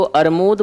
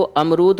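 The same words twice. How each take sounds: First: अरमूद with the r moved ahead of the m; child's mispronunciation. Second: Said in the usual way. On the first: Retold or imitated. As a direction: say अरमूद, swapping r and m as "ar-mood". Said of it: "बोलने लगा". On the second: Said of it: "अब सही शब्द क्या है".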